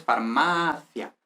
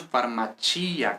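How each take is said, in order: First: FARMACIA as far-MA-thia, stress on the second a; Spanish pronunciation. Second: FARMACIA as far-ma-CHEE-a, stress on the i; Italian, stressed i. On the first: Teacher contrasts Spanish with Italian, FARMACIA stressed on MA. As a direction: say "farmacia" the Spanish way, th sound and unstressed i. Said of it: "en español es farmacia". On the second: Teacher contrasts Italian with Spanish, FARMACIA stressed on CHEE. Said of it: "con acento en la I". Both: Shown as a demonstration.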